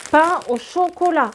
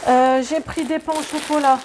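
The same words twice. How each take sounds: First: Pain au chocolat said slower, higher, louder with stress on Pain; insist: Pain au chocolat, not chocolatine; teasing stress on Pain au chocolat; insisting on the term. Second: Said in the usual way. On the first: Shown as a demonstration. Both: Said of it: "Pas chocolatine".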